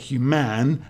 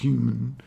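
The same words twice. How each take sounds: First: The stress is on the second syllable. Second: The stress is on the first syllable. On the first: The speaker calls it wrong. "put the stress on the end, but it sounds, you know, contrived" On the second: The speaker calls it right. "the human is got the stress at the start. It's on the hue"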